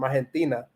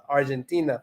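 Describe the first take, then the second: First: Argentina with a breathy Spanish H sound for the g; Spanish pronunciation. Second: Argentina with an English J sound for the g; English pronunciation. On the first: Learner naming countries for viewers, Spanish pronunciation. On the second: Learner naming countries for viewers, English pronunciation. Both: Shown as a demonstration. English then Spanish name.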